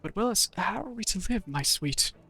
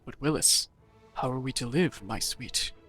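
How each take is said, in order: First: It is said in an ordinary voice. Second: It is said in a deep masculine voice.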